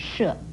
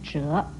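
First: It starts with sh and has a falling tone. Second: It starts with zh and has a rising tone. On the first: "四声射" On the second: "二声折"

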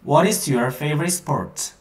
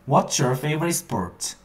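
First: 'What is' is said as two full words. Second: 'What is' is shortened into one syllable.

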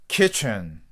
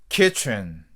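Both takes have the same delivery.

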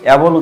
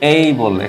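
First: The first vowel sounds like 'a' in cat. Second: The first vowel sounds like 'ay' in day. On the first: The speaker calls it wrong. "অ্যাবল উচ্চারণ এটা ভুল উচ্চারণ" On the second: The speaker calls it right. "এখানে কিন্তু অ্যাবল না"

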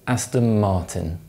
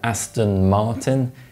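First: Aston ends in an m sound before Martin. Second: Aston ends in a clear n sound.

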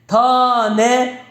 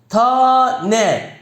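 The two takes are said the same way.

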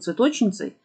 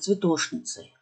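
First: The consonant before the n is 'ch'. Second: The consonant before the n is 'sh'. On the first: "может быть, цветочницей?" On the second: "Нет, цветошницей"

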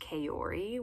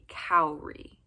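First: The name is said in American English style. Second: The name is said in traditional Japanese style. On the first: The speaker calls it wrong. "here in the US, I think you're really likely to hear it pronounced Kaori" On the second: The speaker calls it right. "the traditional pronunciation is actually Kaori"

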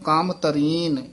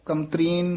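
First: The word is split with a break after kaam. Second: The word is said as one unbroken unit. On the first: The speaker calls it right. "ਕਾਮ ਦੇ ਵਿੱਚ dash ਜੀ ਦੇ ਕੇ ਬੋਲਣਾ ਹੈ" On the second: The speaker calls it wrong. "ਕਮਤਰੀਨ ਇਕੱਠਾ ਨਹੀਂ ਬੋਲਣਾ"

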